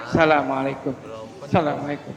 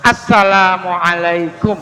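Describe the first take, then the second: First: "Assalamualaikum" muttered low and soft, alif lam dropped; wrong salam. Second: "Assalamualaikum" slowly, with a clear opening a-ssalam; correct salam. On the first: Preacher mimicking the sloppy clipped salam to warn against it. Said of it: "Bukan salamualaikum". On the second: Preacher teaching the congregation the correct full salam. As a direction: give every sound of "Assalamualaikum", slowly. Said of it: "Harusnya assalam, pakai A". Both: Shown as a demonstration.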